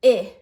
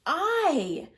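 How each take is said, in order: First: "I" said as the short vowel in itch, loud and clipped; short i sound. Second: "I" said as the letter name, like "eye"; long I, its name. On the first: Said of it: "It makes the sounds like". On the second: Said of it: "it can also say its name". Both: Shown as a demonstration.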